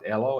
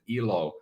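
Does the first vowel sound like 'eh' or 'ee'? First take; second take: eh; ee. First: The first vowel sounds like 'eh'. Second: The first vowel sounds like 'ee'. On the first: It means life. "if we pronounce it elo, it means life in Finnish" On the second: It means happiness. "if we pronounce it ilo, as some people might"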